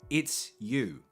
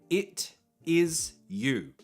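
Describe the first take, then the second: First: It is said quickly, the words joined. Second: It is said slowly, each word separate.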